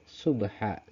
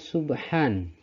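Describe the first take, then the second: First: The word ends on a plain a vowel. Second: The word ends with an n sound.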